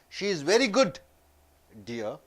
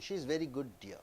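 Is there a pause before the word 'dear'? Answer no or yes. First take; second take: yes; no. First: It has a pause before dear. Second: It runs on without a pause before dear. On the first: She is very good, and the listener is called dear. "She is very good and I'm telling you as dear" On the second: She is a very good, dear person. "She's a very good darling. Very nice person"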